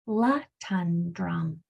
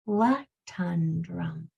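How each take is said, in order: Both takes have the same delivery.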